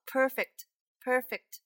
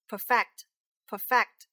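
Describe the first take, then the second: First: Perfect with a strong PER; stress on first syllable. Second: Perfect slowly, with a loud FECT; light first syllable of perfect, punch the second; stress on second syllable. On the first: Teacher modelling the adjective, first-syllable stress on perfect. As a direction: hit the first syllable of perfect, relax the second. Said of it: "重音在第一个". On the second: Teacher modelling the verb, second-syllable stress on perfect. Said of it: "重音在第二个". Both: Shown as a demonstration.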